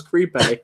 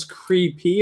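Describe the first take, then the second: First: "creepy" ending in AY, like creep-hey; old mispronunciation. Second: "creepy" drawn out, ending in a clear EE; correct pronunciation. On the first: Retold or imitated. Admitting his old mistake, "creepy" said as creep-AY. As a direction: say "creepy" with AY for the last sound. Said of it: "I thought it was creepy". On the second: Shown as a demonstration. Checking the word with others, "creepy" slowly ending in EE. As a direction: say "creepy" slowly as CREE-PEE. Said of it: "learned how to say creepy correctly".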